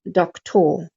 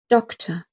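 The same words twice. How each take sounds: First: The second vowel is a full vowel. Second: The second vowel is a short uh sound. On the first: The speaker calls it wrong. "not doctor" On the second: The speaker calls it right. "Second syllable unstressed"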